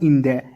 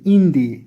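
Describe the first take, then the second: First: The word 'the' is said as 'thuh'. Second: The word 'the' is said as 'thee'. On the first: The speaker calls it wrong. "not in the" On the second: The speaker calls it right. "Because N starts with a sound, so it is a vowel"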